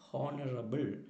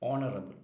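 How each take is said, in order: First: The word begins with an audible h sound. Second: The word begins with a vowel, no h. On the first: The speaker calls it wrong. "ചിലരൊക്കെ തെറ്റായിട്ട് എപ്പോഴും പറയുന്നത് കേൾക്കാം" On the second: The speaker calls it right. "അവിടെയൊക്കെ എച്ച് silent ആണ്"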